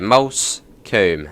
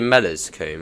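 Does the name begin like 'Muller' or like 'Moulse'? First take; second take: Moulse; Muller. First: The name begins with a 'Moulse' sound. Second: The name begins with a 'Muller' sound. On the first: The speaker calls it right. "But yeah, Moulsecoomb" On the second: The speaker calls it wrong. "funniest pronunciation I've heard of Moulsecoomb"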